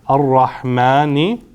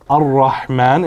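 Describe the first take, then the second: First: The word ends with a short i vowel. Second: The word ends on a bare consonant. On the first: The phrase continues after the word. "There's a kasra on it, there's an E sound" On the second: The word ends the phrase. "we don't pronounce it"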